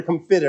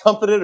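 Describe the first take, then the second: First: "comfited" accented on its middle syllable; "comfited" with a weak first syllable; stress on FIT. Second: "comforted" accented on its first syllable; "comforted" with a weak middle syllable; stress on COM. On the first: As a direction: say com-FIT-ed, leaning on FIT. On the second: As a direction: say COM-fit-ed, front-stressed. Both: Shown as a demonstration. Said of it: "where you put the accent".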